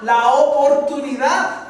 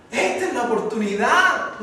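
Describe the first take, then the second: First: "oportunidad" drawn out slowly, louder and higher; emphatic repeat. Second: Said in the usual way. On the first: Shown as a demonstration. Preacher driving home the beggar's chance, emphatic stretched repeat. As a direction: lean hard on "la oportunidad", stretching every syllable. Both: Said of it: "Esta es la oportunidad, la oportunidad".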